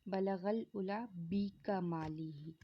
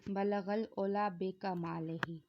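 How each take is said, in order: First: The second word starts with a 'u' vowel. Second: The second word starts with an 'o' vowel. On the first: The speaker calls it right. "इसको इस तरह पढ़ना चाहिए" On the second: The speaker calls it wrong. "अक्सर ये पढ़ा जाता है ... हालांकि ये गलत तरीका है"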